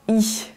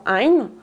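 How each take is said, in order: First: The ending is a plain ee vowel. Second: The ending is a nasal ay-like vowel. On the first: "en qualité standard, souvent I" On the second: "en Pays Vantais on prononcera la plupart du temps ein"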